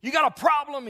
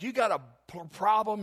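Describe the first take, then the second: First: Yelled much higher and louder, a furious stranger; angry yell. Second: Retold yell, half-done. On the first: Retold or imitated. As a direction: bark it at the preacher like a man itching to fight. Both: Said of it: "he yells at my preacher".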